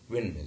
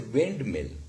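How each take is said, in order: First: The d sound is dropped. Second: The d sound is clearly pronounced. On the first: The speaker calls it right. "rather windmill" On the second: The speaker calls it wrong. "We do not say windmill"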